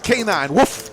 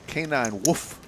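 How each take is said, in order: First: The woof is said loudly. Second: The woof is said quietly.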